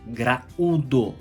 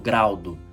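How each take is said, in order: First: The a and u fall in separate syllables. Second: The a and u merge into one syllable. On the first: The speaker calls it right. "o U está sozinho na sílaba" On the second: The speaker calls it wrong. "eu não falo graudo"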